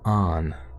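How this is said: The vowel is open, like an 'ah'.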